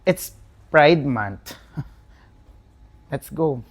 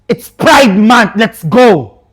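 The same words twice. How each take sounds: First: It sounds let down and disappointed. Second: It sounds harsh and angry.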